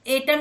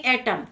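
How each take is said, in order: First: एटम starting on a closed "ay", like "ate-um"; spelling pronunciation. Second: एटम starting on an open "ae", as in "at"; English pronunciation. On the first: Teacher showing what not to say, closed "ay" opening on एटम. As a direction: begin एटम with letter-name A. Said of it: "नहीं". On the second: Teacher correcting the word, open "ae" opening on एटम. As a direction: open the first vowel of एटम. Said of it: "उसका उच्चारण ऐसे करते हैं". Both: Shown as a demonstration.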